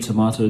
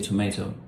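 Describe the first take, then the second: First: It is said with a British pronunciation. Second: It is said with an American pronunciation. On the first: "I think the British say tomato" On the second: "the Americans say tomato"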